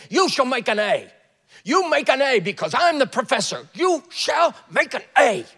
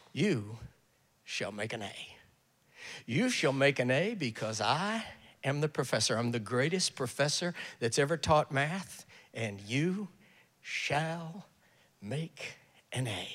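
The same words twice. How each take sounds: First: Loud, high, menacing command; hammered-out, shouted professorial decree; psychotic professor. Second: Low, soft, reassuring professor; hushed, unhurried assurance to a student; same words said kindly. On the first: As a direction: order the class like a crazed tyrant. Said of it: "who's not psychotic". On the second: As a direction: promise it gently, with quiet pauses. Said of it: "he says the same thing". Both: Acted.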